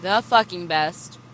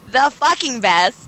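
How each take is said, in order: First: Unenthusiastic. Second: Laughing shout. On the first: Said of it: "Can you say that with, like, a little enthusiasm?". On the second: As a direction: burst out with it laughing. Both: Real, not acted.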